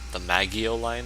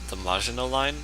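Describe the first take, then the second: First: The name is squashed into something like 'Maggio'. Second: The name is said in its usual full form.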